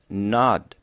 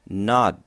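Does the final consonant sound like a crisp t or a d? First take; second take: d; d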